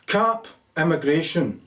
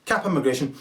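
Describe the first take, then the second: First: Saying it slowly as he types it in; slow typed-in dictation. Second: Said in the usual way. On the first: Shown as a demonstration. Voter typing his vote into the phone, slowly. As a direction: spell out the entry word by word, unhurried. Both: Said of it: "type in".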